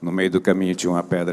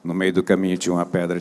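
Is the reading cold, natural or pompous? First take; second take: cold; cold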